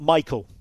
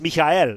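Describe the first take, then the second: First: The name is said with English pronunciation. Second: The name is said with German pronunciation. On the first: The speaker calls it wrong. "It's not Michael" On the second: The speaker calls it right. "the German name Michael, as in Michael Ballack, is Michael"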